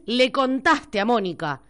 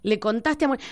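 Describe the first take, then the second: First: Argentine way. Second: Plain Rioplatense "Le contaste a Mónica"; natural Argentine phrasing, not Spain's "has contado". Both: Shown as a demonstration. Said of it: "Decís".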